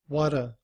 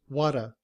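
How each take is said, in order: Both takes have the same delivery.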